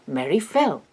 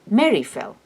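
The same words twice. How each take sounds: First: The emphasis falls on the word fell. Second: The emphasis falls on the word Mary. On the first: What happened is the new information. The speaker calls it wrong. "and not" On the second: The person who fell is the new information. The speaker calls it right. "English marks new information with an emphatic intonation, his answer can only be"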